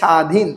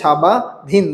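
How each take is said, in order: First: No separate b sound is pronounced inside the word. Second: A separate b sound is pronounced inside the word. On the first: The speaker calls it right. "কি বলেন? স্বাধীন।" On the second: The speaker calls it wrong. "স্বাবাধীন বলেন না"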